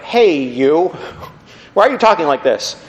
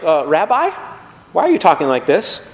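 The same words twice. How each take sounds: First: Mock-indignant challenge with a laugh; losing respect. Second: Mildly hesitant, politely questioning; puzzled but respectful. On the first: Crowd that has lost esteem for Jesus, mock disrespectful. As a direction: call him out, half laughing. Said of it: "their esteem for him really tanks". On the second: Acted. Follower questioning Jesus as Rabbi, puzzled but still respectful. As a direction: query the rabbi with a touch of doubt. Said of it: "their terminology for Jesus descends".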